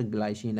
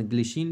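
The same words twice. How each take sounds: First: ग्लाइसिन said "glai-sheen", first part rhyming with eye; English pronunciation. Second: ग्लिसिन said "gli-sheen", short first vowel; Hindi pronunciation. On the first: Teacher telling students the English form, ग्लाइसिन with a "glai" sound. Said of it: "English में वैसे इसका". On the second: Teacher allowing students the Hindi form, ग्लिसिन with a short "gli". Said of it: "Hindi में अपन ग्लिसिन भी बोल सकते हैं". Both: Shown as a demonstration.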